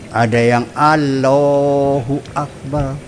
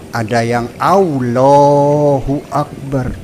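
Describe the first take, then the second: The two takes are said the same way.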